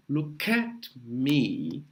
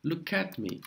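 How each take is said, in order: First: "Look at me" drawn out, K joined onto "at"; linking demo. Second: Said in the usual way. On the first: Shown as a demonstration. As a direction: stretch "Look at me" slowly, linking Look into at. ("Look at me" bem devagar, juntando o K com o A) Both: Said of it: "o K vai juntar com A".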